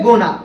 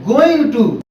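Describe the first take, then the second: First: The two words merge into one reduced word. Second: Both words are said fully and separately.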